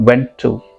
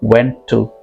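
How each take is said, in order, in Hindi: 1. दोनों शब्द जुड़े हुए हैं, और एक t की आवाज़ साझा करते हैं। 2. दोनों शब्द जुड़े हुए हैं, और एक t की आवाज़ साझा करते हैं।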